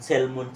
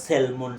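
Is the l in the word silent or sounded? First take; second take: sounded; sounded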